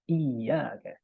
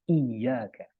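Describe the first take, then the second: The two takes are said the same way.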